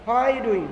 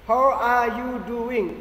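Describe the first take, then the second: First: How are you doing run together, are almost dropped; shortened form. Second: Each word said slowly and fully, How are you doing; slow careful demo. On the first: Teacher shows the shortened spoken form. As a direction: clip How are you doing into one quick phrase. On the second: Teacher shows the full slow form of the greeting. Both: Shown as a demonstration.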